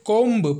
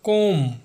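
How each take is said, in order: First: The final b sound is pronounced. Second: The final b sound is silent. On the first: The speaker calls it wrong. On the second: The speaker calls it right.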